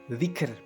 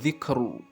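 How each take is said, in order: First: The word ends on the consonant r. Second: The word ends on an added u vowel. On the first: The speaker calls it right. "ketika dibaca waqaf, maka membacanya adalah dzikr" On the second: The speaker calls it wrong. "bukan dzikru"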